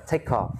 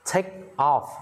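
First: "Take off" joined, k running into "off"; "Take off" linked without a break; linked pronunciation. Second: "Take" and "off" said apart; "Take off" broken word by word; words separated. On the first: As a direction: run "Take off" together quickly as one word. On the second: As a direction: say "Take", pause briefly, then "off". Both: Shown as a demonstration. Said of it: "Đọc nối sang".

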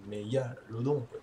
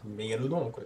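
First: Slow, drawn-out mégalodon quoi; slow dramatic voice. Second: Said in the usual way. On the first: Shown as a demonstration. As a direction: say mégalodon quoi slowly and ominously.

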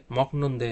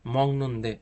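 First: "মকনন্দে" with a hard k before the n; wrong pronunciation. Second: "মংনন্দে" with ng in place of k; correct pronunciation. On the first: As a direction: say "মকনন্দে" with ক in place of ং. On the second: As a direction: say "মংনন্দে" with nasal ং, drawn out. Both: Shown as a demonstration. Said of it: "এরকম হবে না".

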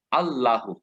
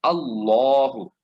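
First: Wrong আল্লাহু with a light thin lam and open a. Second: আল্লাহু with a full, thick lam and dark rounded a; আল্লাহু as alːɔhu, heavy lam. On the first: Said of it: "not আল্লাহু, এভাবে পড়বো না". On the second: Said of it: "এখানে আমরা পড়ব". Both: Shown as a demonstration.

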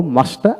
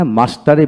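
First: "মাস্টার" without its final r; non-rhotic British-style "মাস্টার"; r dropped. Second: "মাস্টারই" with the r clearly sounded; fully pronounced. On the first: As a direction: end "মাস্টার" on an open aa. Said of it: "আমরা বলবো না". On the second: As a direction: keep the r in "মাস্টারই". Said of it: "এখানে মাস্টারই বলবো". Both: Shown as a demonstration.

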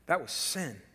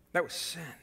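The two takes are said the same way.

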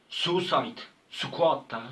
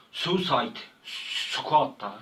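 No difference in how they are said.

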